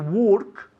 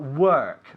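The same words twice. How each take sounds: First: The vowel is rounded, sounding like 'walk'. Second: The vowel is central, sounding like 'word'. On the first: It sounds like the verb for walking. The speaker calls it wrong. "We don't say work" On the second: It means to labour. The speaker calls it right. "But work"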